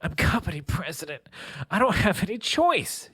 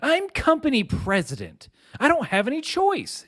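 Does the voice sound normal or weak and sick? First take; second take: weak; normal. First: It is said in a weak, sick voice. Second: It is said in a normal, healthy voice.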